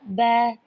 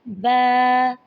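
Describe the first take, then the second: First: The vowel is short and smooth. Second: The vowel is drawn out long. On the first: The speaker calls it right. "बस कैसे पढ़ना है?" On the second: The speaker calls it wrong. "ज़्यादा लंबा नहीं करना"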